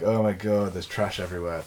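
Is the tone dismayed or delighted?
dismayed. It sounds dismayed and upset about the trash.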